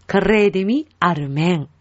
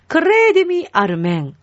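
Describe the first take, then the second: First: "クレデミアルメン" evenly, split after "クレデミ"; follow-along repeat. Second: "クレデミアルメン" pitched high at the start, rolled R; repeat-after-me model. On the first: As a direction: repeat "クレデミアルメン" more subdued, in two parts. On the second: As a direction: lead with "クレデミアルメン", lifting the long rolled "クレ". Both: Shown as a demonstration. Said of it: "後についてきてくださいね".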